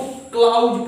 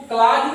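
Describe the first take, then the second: First: क्लाउज said as "klauj" with a clear "au" glide; क्लाउज pronounced with a full diphthong; correct pronunciation. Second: क्लाज said with a short flat "klaaj" vowel; क्लाज without the "au" diphthong; wrong pronunciation. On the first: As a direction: stretch the "au" in क्लाउज. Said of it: "इसको क्लाउज पढ़ते हैं". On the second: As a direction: read क्लाज as plain "klaj", no glide. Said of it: "इसको क्लाज नहीं पढ़ते हैं". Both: Shown as a demonstration.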